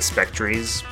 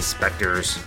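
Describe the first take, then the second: First: The word ends with a 'ree' sound. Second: The word ends with a plain 'er' sound. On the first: "if you want to mispronounce like I always do" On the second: "R-E pronounced with an R sound"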